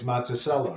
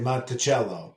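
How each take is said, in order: First: It is said with a local Illinois pronunciation. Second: It is said with an Italian pronunciation.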